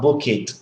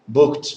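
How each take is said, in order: First: It is said as two syllables with an extra vowel. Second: It is said as one syllable ending in t. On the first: The speaker calls it wrong. "not book it" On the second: The speaker calls it right. "So we don't pronounce the e"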